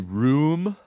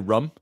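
First: It has the usual long 'oo' vowel. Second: It has a short vowel, like 'rum'. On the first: This is how most other people say it. "So I don't say room" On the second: This is the speaker's own regional way of saying it. "I say rum"

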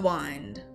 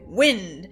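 First: The vowel is long, as in mind. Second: The vowel is short, as in pinned. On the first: This is the early modern English pronunciation. "They would say, hold the wind. And it would rhyme with mind and behind" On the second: This is the modern pronunciation. "they're not going to say wind"

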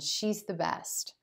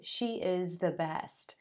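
First: She is is shortened into one syllable. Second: She is is said as two full words. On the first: The speaker calls it right. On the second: The speaker calls it wrong.

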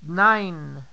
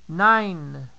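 Both takes have the same delivery.

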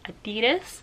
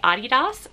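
First: The brand name is said the American way. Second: The brand name is said the non-American way. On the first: "the American way, which is Adidas" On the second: "I do say Adidas. I do not say it the American way"

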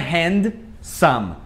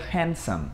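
First: The d sound is clearly pronounced. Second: The d sound is left out. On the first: The speaker calls it wrong. "Só que não é handsome" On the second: The speaker calls it right. "O D geralmente ele não é pronunciado, fica handsome"

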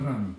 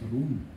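First: The vowel sounds like 'a'. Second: The vowel sounds like 'oo'. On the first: The speaker calls it right. "но вообще это «ран»" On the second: The speaker calls it wrong. "он постоянно ее называет «рун»"

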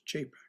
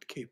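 First: The word begins with a ch sound. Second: The word begins with a hard k sound. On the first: The speaker calls it right. "It's Chapax" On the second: The speaker calls it wrong. "not Capax"

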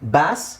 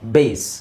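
First: The vowel is short, like in cat. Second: The vowel is a glide, like in face. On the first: "ಇದನ್ನು ಬ್ಯಾಸ್ ಅಂತಲೂ ಹೇಳ್ಬೋದು" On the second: "ಬೇಸ್ ಅಂತಲೂ ಹೇಳ್ಬೋದು"

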